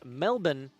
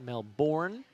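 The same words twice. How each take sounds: First: It is pronounced the Australian way. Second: It is pronounced the American way. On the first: The speaker calls it right. "It is Melbourne" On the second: The speaker calls it wrong. "That's the American pronunciation"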